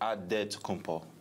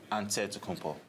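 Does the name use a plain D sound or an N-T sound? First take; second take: D; N-T. First: The name is said with a plain D sound. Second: The name is said with an N-T sound. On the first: This is the Nigerian way of saying the name. "The Nigerian way, you gotta say it with a D" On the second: This is the Greek way of saying the name. "in the Greek way, you say it with the N T"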